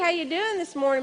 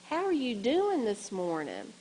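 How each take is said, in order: First: It is said loudly and brightly. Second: It is said quietly and calmly. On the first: The listener is startled. The speaker calls it wrong. "in a cheerful voice" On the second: The listener is approached gently. The speaker calls it right. "very quietly and calmly"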